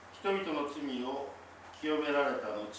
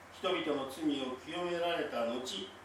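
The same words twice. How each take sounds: The two takes are said the same way.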